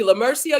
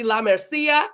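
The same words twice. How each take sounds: First: Said in the usual way. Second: Name said with a Spanish accent. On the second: Shown as a demonstration. Host playfully trying a viewer's name, in a Spanish accent. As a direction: put a light Spanish accent on it. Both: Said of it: "put a Spanish accent on everything".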